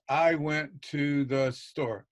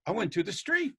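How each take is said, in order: First: Said in the usual way. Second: Street lifted higher with a rise; teacher's correcting rise on street; corrected with intonation. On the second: Shown as a demonstration. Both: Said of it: "There's intonation there".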